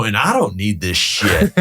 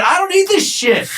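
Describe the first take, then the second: First: Slow, measured dismissal; retold firm refusal. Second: Very high-pitched retold outburst, laughing; emphatic repeated refusal. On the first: Broker first refusing the rude tenant, firm and slow. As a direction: draw the words out, retelling a firm brush-off. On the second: Broker repeating himself to tenant in parking lot, defiant. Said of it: "What'd you say?".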